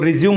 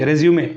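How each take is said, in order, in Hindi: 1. शब्द का अंत सादी 'm' ध्वनि से होता है। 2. शब्द का अंत 'may' ध्वनि से होता है। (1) "इसको रिज्यूम मत पढ़ देना" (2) "रेज्यूमे इसको बोला जाता है"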